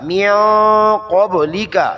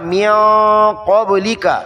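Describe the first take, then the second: The two takes are said the same way.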